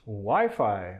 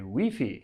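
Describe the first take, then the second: First: It is said with an ordinary English pronunciation. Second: It is said with a French Canadian pronunciation.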